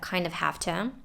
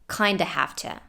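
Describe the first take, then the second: First: The word 'of' is said in full. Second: 'Kind of' is reduced to 'kinda'. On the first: "she said kind of" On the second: "could have just as well said kinda have to"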